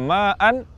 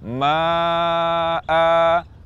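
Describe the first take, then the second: First: The word ends with a nasal n sound. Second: The word ends with a two-beat long a.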